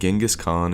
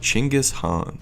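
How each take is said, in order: First: The name is said the common Western way. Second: The name is said the Mongolian way. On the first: The speaker calls it wrong. "Most people in the Western world actually say his name incorrectly" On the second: The speaker calls it right. "The correct pronunciation"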